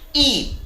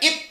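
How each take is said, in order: First: The vowel is long. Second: The vowel is short. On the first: The speaker calls it right. "ini dibaca panjang" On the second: The speaker calls it wrong. "Gak boleh dibaca eat saja"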